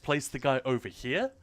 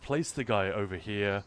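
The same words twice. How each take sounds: First: It is said in a warm, cheerful tone. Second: It is said in a flat, toneless way. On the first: The advice is friendly and helpful. "listen to my tone of voice for a moment. I'm I'm being cheerful" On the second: The advice can seem cold or critical. "suddenly without that tone"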